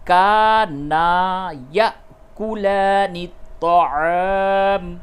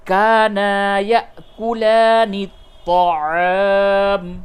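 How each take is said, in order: The two takes are said the same way.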